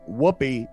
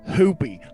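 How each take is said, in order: First: The word begins with a clear W sound. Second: The word begins with an H sound, no W.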